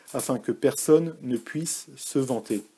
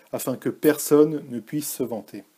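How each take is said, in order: The two takes are said the same way.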